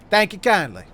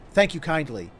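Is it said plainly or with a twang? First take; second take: twang; plainly. First: It is said with a drawling twang. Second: It is said plainly, without a twang.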